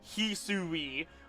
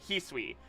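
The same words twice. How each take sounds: First: The word is said with three syllables. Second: The word is said with two syllables. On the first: "American fans has been them pronouncing Hisui as" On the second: "it's actually just two syllables"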